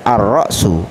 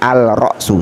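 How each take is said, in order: First: The L is silent and the R doubled. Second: The L is clearly pronounced before the R. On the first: The speaker calls it right. "alnya tidak dibaca ... Maka cara membacanya Ar-Ra'su" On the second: The speaker calls it wrong. "bukan Al-Ra'su, salah"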